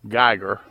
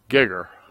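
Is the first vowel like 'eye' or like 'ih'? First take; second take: eye; ih. First: The first vowel sounds like 'eye'. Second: The first vowel sounds like 'ih'. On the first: This is the speaker's own way of saying it. "Now I pronounce that Geiger" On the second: This is an older relative's way of saying it. "My grandfather pronounced it Gigger"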